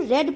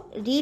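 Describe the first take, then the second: First: The vowel is short, rhyming with 'bed'. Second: The vowel is long, rhyming with 'seed'. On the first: It is the past form of the verb. "Second form भी रीड ही होता है लेकिन उसको रेड पढ़ते हैं" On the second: It is the present form of the verb. "रीड का जो first form होता है उसको रीड ही पढ़ेंगे"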